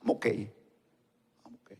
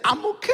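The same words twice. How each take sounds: First: Low, quiet, slow imitation of someone claiming to be fine; desanimado. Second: High-pitched mock "I'm ok"; fingiendo estar bien. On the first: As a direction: mumble it low and slow, unconvincingly. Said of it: "la expresión que yo conozco de ellos dice". (imitando un desánimo, bajo y lento) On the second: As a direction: quote it high, as a put-on claim. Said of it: "no está". (imitación aguda, poco creíble)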